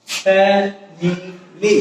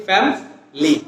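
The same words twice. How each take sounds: First: Slow ফ্যামিলি split as fa - mi - li; three syllables. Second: ফ্যামিলি shortened to fam-li; two syllables. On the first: Teacher counting three syllables, ফ্যামিলি slowly as fa-mi-li. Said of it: "সিলেবলগুলি তিনটা". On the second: Teacher showing two syllables, ফ্যামিলি as fam-li. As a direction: drop the middle i of ফ্যামিলি: fam, li. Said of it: "দুইটা syllable হচ্ছে কি". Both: Shown as a demonstration.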